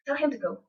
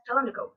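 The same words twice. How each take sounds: First: Said in the usual way. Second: "tell him to go" with him and to reduced; unstressed, run-together "tell him to go"; weak forms. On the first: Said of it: "we have weak forms". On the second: Shown as a demonstration. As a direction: drop the h and soften "to" to a schwa in "tell him to go". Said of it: "syllable sounds that become unstressed".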